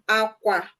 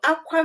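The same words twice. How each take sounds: First: It carries the tone pattern of 'bed'. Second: It carries the tone pattern of 'to cry'. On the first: It means bed. "aqua means bed" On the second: It means to cry. "aqua means to cry"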